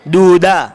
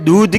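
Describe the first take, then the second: First: The d and h are split, ending in a vowel. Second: It ends in one aspirated dh with no vowel. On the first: The speaker calls it wrong. "दाल और हा को अलग अलग पढ़ा दूधा" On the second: The speaker calls it right. "दाल और हा मिलकर पढ़ा जाता है ध"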